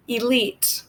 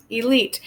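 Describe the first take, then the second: First: "elite" said softly and clearly; model word. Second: "Elite" repeated in an even voice; repeated model word. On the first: Teacher introduces "elite" to learners, soft and clear. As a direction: present "elite" gently as the new word. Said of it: "The next word is going to be". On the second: Teacher repeats "Elite" for learners, even. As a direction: repeat "Elite" once more. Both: Shown as a demonstration.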